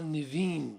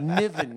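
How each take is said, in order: First: The name ends with a long 'veen' sound. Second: The name ends with a short 'ven' sound. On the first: The speaker calls it wrong. "You wouldn't believe how many people they don't know me" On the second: The speaker calls it right. "It's just like Wonder Bread as it comes"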